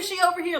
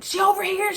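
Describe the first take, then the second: First: High, loud call repeated; yelling. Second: High, loud call across the street; yelling. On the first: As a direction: keep shouting to wave the truck over. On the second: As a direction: shout to guide the truck in. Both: Retold or imitated. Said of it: "He was yelling at people".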